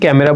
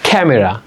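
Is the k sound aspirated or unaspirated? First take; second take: unaspirated; aspirated. First: The k is said without a puff of air. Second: The k is said with a puff of air. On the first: The speaker calls it wrong. "তাহলে আজকে থেকে কি ক্যামেরা বলা যাবে, no" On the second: The speaker calls it right. "It will be ক্যামেরা"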